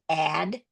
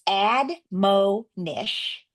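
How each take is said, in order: First: The second-syllable O is said as a short vowel. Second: The second-syllable O is said as a long vowel. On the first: The speaker calls it right. "he's going to flex it to short O" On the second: The speaker calls it wrong. "If he breaks it this way and says admonish"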